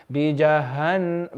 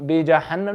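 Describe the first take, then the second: First: बीजहन- slowly, with a light h; low, soft बीजहन-, gently breathed h. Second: बीजहन्नम with a harsh, heavy h; hard H, mistaken. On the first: Teacher corrects a student, बीजहन- with soft h. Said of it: "ये हा soft होना चाहिए". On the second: Teacher shows what to avoid, बीजहन्नम with hard h. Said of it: "नहीं". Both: Shown as a demonstration.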